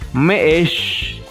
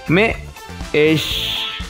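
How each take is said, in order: First: It is said at normal speed. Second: It is said slowly.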